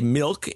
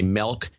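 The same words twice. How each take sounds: First: The vowel has a general non-Midwestern sound. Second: The vowel has a Midwestern Chicago sound. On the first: "I now say milk" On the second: "Midwestern pronunciations I picked up from my mother"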